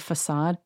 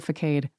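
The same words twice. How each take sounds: First: "facade" with a soft s sound; correct "facade". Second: "facade" with k and long a; misread "facade". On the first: Naming a word she hates, fuh-SAHD "facade". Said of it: "When I read something, I say it differently". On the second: Showing how she reads it, fuh-KADE "facade". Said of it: "I always read it". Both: Shown as a demonstration.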